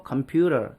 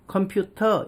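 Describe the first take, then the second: First: "컴퓨터" said "compyu-rer"; T를 리을로. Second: "컴퓨터" with a clear T in "터". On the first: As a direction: flap the T of "컴퓨터" into R. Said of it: "이렇게 발음을 하죠". ("컴퓨터"를 "컴퓨러"로) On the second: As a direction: keep the hard T in "컴퓨터". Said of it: "T를 리을로 바꿔버린". ("컴퓨터"의 ㅌ을 그대로) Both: Shown as a demonstration.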